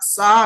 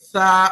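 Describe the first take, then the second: First: It begins with a plain s sound. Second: It begins with a soft th sound. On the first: The speaker calls it wrong. "సా అనకూడదు" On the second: The speaker calls it right. "నాలుకని పైదంతాన్ని తగిలించి చెప్పాలి"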